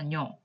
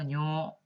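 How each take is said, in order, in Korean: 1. 모음이 짧아요. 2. 모음을 길게 빼서 발음해요.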